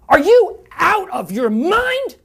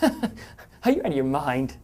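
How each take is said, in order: First: It is said in an angry tone. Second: It is said playfully, with a laugh.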